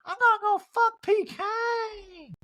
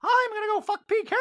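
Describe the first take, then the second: First: High, slow mock Erica; Erica impression. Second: High mock Dorit; Dorit impression. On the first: Recapper doing Erica by mistake, high mock voice. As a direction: whine it up high. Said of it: "that was my Erica". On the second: Recapper correcting to Dorit, high mock voice. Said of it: "Dorit goes".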